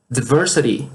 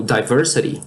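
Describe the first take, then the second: First: "Diversity" with a short first vowel, like "dih-VER-sity"; short-i pronunciation. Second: "diversity" with the first vowel as in "die", "die-VER-sity"; long-i pronunciation. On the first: Teacher showing the first of two accepted pronunciations, "Diversity" said "dih-VER-sity". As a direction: say "Diversity" starting "dih", not "die". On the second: Teacher showing the second accepted pronunciation, "diversity" said "die-VER-sity". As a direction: open "diversity" with a clear "die" sound. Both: Shown as a demonstration. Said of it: "pode as duas formas de pronúncia".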